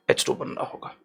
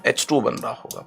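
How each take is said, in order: First: Hushed aside to students; whispered. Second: Said in the usual way. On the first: Shown as a demonstration. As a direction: whisper the formula softly to the class. Whispered repeat of the formula.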